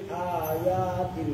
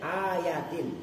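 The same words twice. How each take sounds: First: The 'ya' vowel is drawn out long. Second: The first vowel is long, the 'ya' vowel short. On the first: The speaker calls it wrong. "dibaca panjang dua-duanya, ya-nya" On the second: The speaker calls it right. "A-nya panjang, ya-nya pendek"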